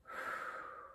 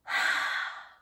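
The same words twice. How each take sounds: First: Soft whistling blow through pursed lips; a quiet unvoiced fffoo; cold breath out. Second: Open-mouthed warm exhale onto the hands; a slow voiced haaah; warm breath out. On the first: Teacher shows the kids a cool whistling breath, soft blow. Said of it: "that's gonna be a cold breath". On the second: Teacher shows the kids a warm breath, haaah exhale. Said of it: "That's a warm breath". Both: Shown as a demonstration.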